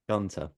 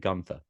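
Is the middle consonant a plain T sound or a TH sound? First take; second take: T sound; TH sound. First: The middle consonant is a plain T sound. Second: The middle consonant is a TH sound. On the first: "You do pronounce the T" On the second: "always say Gunther"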